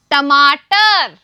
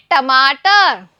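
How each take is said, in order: First: Stretched out syllable by syllable, टमाटर; slow model word. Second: Said in the usual way. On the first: Shown as a demonstration. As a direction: drag टमाटर out slowly for the class. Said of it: "तो सभी बोलिए". (टमाटर धीरे-धीरे खींचकर) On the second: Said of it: "सभी बच्चे बोलिए".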